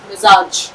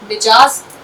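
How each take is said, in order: First: The middle sound is z; it ends in j. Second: The middle sound is j; it ends in z. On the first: The speaker calls it right. "मीम plus जे plus अलिफ plus जीम, मिजाज" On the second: The speaker calls it wrong. "कुछ लोग बोलते हैं मीम plus जीम plus अलिफ plus जे, मिजाज नहीं"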